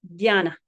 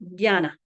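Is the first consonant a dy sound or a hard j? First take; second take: dy; dy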